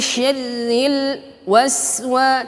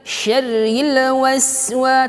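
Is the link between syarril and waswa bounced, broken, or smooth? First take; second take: broken; bounced. First: There is a break between the two words. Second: The r bounces before the next word. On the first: "jangan juga diputus" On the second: "jangan sampai memantul"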